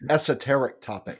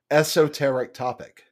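First: The phrase is said plainly without a drawl. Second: The phrase is said with a drawn-out drawl. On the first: "Oh, I'm sorry" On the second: "he gets that draw thing going"

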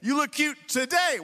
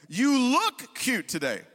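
First: The stress is on the word today. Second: The stress is on the word you.

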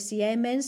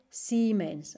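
First: The 'ie' is said as two separate vowels. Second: The 'ie' is said as one long i. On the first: The speaker calls it wrong. "no se dice Siemens" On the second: The speaker calls it right. "se dice Siemens, ¿ok? La IE es siempre I larga"

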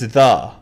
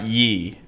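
First: The word begins with a 'th' sound. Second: The word begins with a 'y' sound. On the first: The speaker calls it right. "it's the" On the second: The speaker calls it wrong. "It's not ye"

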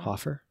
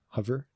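First: The middle consonant is a voiceless f sound. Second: The middle consonant is a voiced v sound.

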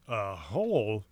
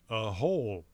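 First: It is exclaimed in an exaggerated imitated voice. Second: It is said as a plain, matter-of-fact reply. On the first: The news is met with shocked disbelief. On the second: The fact is simply reported.

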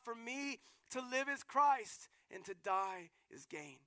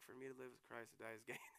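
First: It is said with passion, crying out. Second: It is said flatly, without feeling. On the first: The words come from rejoicing amid suffering. The speaker calls it right. "he said it with some passion ... he's crying out" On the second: The words are stated without deep conviction. The speaker calls it wrong. "I doubt he said, like"

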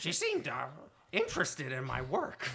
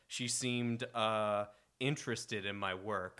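First: It is read in a put-on Gwildor voice. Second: It is read in his plain reading voice.

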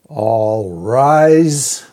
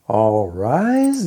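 First: It is said firmly, with commanding authority. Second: It is said hesitantly, like a question.

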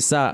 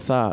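First: The syllable begins with an s sound. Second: The syllable begins with a th sound. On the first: This is how Latin Americans say it. "all Latin America say sa" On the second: This is how people in Spain say it. "in Spain go tha"

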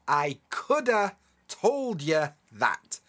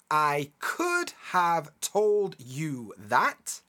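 First: The words 'could have' are reduced to 'coulda'. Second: The words 'could have' are said in full. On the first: "we end up with coulda"

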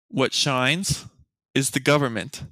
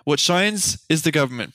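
First: It is read at a slower pace. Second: It is read at a faster pace.

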